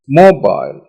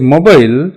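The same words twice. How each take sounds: First: The stress falls clearly on the first syllable. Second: The syllables are said with even, unmarked stress. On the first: The speaker calls it right. "the stress is on the first syllable" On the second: The speaker calls it wrong. "Instead of the mobile"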